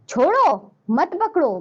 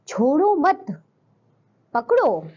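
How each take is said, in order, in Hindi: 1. शब्द chhodo के बाद विराम है। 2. शब्द mat के बाद विराम है।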